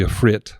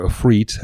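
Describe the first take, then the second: First: Ifrit with a short final "i"; alternative pronunciation. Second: Ifrit with a long "ee" ending; familiar pronunciation. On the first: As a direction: say Ifrit to rhyme with "writ". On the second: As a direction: say Ifrit as if-REET. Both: Shown as a demonstration. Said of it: "as we call it".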